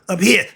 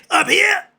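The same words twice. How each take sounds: First: Said in the usual way. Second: "Up here." shouted much higher and louder. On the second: Real, not acted. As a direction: burst out yelling "Up here.". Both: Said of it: "Sorry about that".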